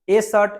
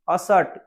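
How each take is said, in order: First: The article is a full 'ay' vowel. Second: The article is a short, reduced vowel. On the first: The speaker calls it wrong. "ए pen नहीं बोलना है हमको" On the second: The speaker calls it right. "आज से ए नहीं बोलना है, इसको बोलना है आपको ओनली फॉर अ"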